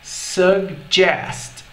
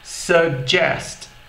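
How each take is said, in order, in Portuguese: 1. A palavra é dita devagar e alongada. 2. A palavra é dita em velocidade normal. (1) "Mais devagar"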